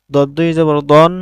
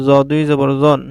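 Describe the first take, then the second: First: "দন" said with a full, dark o; heavy ض sound, "দন" rounded like o; heavy letter with tanween. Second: "জন" said with a thin vowel; light ز sound, "জন" kept thin; light letter with tanween. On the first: (মোটা স্বরে "দন") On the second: (পাতলা স্বরে "জন") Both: Shown as a demonstration. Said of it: "তানবিনের মাধ্যমে হরফের উচ্চারণের পার্থক্য".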